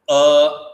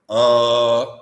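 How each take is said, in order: First: The vowel is said in a plain, full way. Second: The vowel is said in a suppressed way. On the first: "a that is Udata, a normal form" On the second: "Anudata means uh, when you suppress it"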